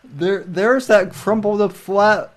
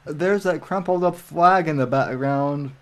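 First: Surprised. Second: Said in the usual way. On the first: Real, not acted. Spotting the flag on stream.

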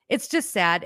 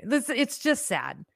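First: Said in the usual way. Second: "This, it's just sad" drawn out slowly, words stretched; slow sad sigh. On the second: Real, not acted. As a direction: let it sink, slow and heavy. Lamenting the country.

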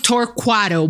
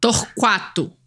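First: Torquato said tor-KWAH-doh, Americanized; Americanized pronunciation. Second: Torquato said tor-KWAH-too with the Q as kw; Brazilian pronunciation. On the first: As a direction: Torquato the American way, qua kept. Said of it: "you can say it Americanized". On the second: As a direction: Torquato the Portuguese way, pronouncing the qua. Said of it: "how do you say her last name". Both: Shown as a demonstration.

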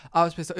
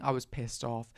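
First: Louder, punched second take; angry repeat. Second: Said in the usual way. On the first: Shown as a demonstration. To the viewers, replaying her fury louder. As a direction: say it again with real heat.

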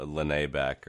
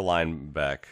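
First: "Lene Beck" with a separate middle syllable; "Lene Beck" in three syllables, not like "line"; alternative pronunciation. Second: "Linebeck" with first part like "line"; "Linebeck" rhyming its start with "fine"; first pronunciation. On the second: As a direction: say "Linebeck" in two syllables, LINE-beck. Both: Shown as a demonstration. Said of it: "however you wanna say it".

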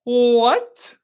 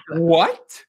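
First: High, drawn-out, hammed-up disbelief; Shannon's shocked reaction. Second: Mildly exaggerated startled question; Shannon's shocked reaction. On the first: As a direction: stretch it into a high rising gasp of a question. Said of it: "Yeah, it's like this. It's like". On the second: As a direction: react with a rising, disbelieving question. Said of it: "Shannon's reactions are always so funny".

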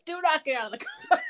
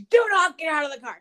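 First: Higher mock order with a laugh in it; mock the husband's command, laughing; laughing cop order. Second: Louder stern command to stay put; firm cop order. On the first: Retelling husband's warning, higher and laughing. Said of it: "So he's like". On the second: Retold or imitated. Husband warning wife in the car, loud firm order. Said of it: "he goes".

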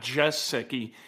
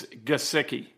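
First: Gesicki said with a soft J, "JESS-icky"; wrong pronunciation. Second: Gesicki with a hard G, "guh-SICK-ee"; correct pronunciation. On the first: Radio host showing listeners how not to say the name, mispronounced. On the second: Radio host teaching listeners the player's name, pronounced correctly. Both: Shown as a demonstration. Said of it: "that is how you pronounce his name".

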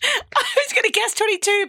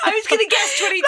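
First: High pitched. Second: High, fast, laughing complaint; high pitched. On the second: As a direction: squeak it out laughing. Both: Real, not acted. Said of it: "That was so high pitched".

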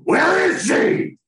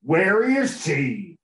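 First: High, loud, slow Batman shout. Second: Slow, drawn-out cowboy-ish Batman. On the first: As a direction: bellow it like a hammy Batman. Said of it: "my Batman voice is definitely better". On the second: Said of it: "You sound like a fucking cowboy". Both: Pretend.

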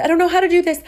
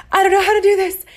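First: Higher and louder, rising panic; pleading in mounting panic; mock distress. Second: Much higher and louder, a strained, wailing plea; near-wailing despair. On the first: In the woods before dawn, higher and louder panicked pleading. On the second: Retold or imitated. Repeating the plea to her boyfriend, much higher and louder, wailing. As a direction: push it to the breaking point of a wail. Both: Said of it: "And I said".

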